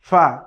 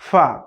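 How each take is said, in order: First: It is made with lip against upper teeth. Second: It is made with lip against upper teeth.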